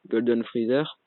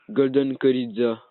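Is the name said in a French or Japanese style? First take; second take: French; Japanese. First: The name is said with French pronunciation. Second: The name is said with Japanese pronunciation. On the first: "En français" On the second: "prononcé à la japonaise"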